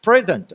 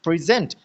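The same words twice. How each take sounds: First: present said PREZ-ent; present as PREZ-ent, second syllable weak; stress on first syllable. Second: present said pri-ZENT; present as pri-ZENT, first syllable weak; stress on second syllable. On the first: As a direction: punch the first syllable of present, then fall. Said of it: "जो first syllable है". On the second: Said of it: "जो second syllable है". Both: Shown as a demonstration.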